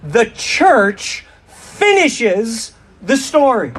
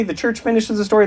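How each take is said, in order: First: Slow, drawn-out unison phrase; slow call and response. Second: Quick run-through. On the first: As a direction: lead the crowd, very slowly. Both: Shown as a demonstration. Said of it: "Let's say that together".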